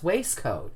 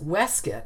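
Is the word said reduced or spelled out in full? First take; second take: spelled out; reduced. First: The word is said as it is spelled. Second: The word is said in a reduced form. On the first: This is the newer, more common way. "is now being much more commonly pronounced waistcoat" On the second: This is the traditional way. "which was always pronounced waistcoat"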